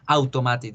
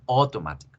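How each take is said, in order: First: "automatic" read letter by letter the Spanish way, au-to-ma-tic; teacher showing the mistake students make with "automatic"; wrong Spanish-style reading. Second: "automatic" with "auto" said as "oto", English-style; teacher modelling the correct English "automatic"; English pronunciation. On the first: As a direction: say "automatic" as the Spanish spelling reads, every vowel as written. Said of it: "ustedes no dicen". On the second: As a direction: model "automatic" as o-to-MA-tic, stress on MA. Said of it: "dicen automatic". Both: Shown as a demonstration.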